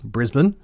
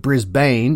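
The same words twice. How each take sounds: First: "Brisbane" as BRIZ-bun; local Australian pronunciation. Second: "Brisbane" as BRIS-bayne; pronounced as spelled. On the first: Showing how Australians say it, "Brisbane" as BRIZ-bun. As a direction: reduce the end of "Brisbane" to bun. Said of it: "is pronounced". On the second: Poking fun at Australian names, "Brisbane" as BRIS-bayne. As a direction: read "Brisbane" with a full long a at the end. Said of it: "is pronounced Brisbane". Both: Shown as a demonstration.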